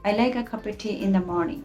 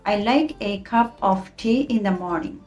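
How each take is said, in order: First: The small words are reduced to a schwa. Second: The small words are said fully and carefully.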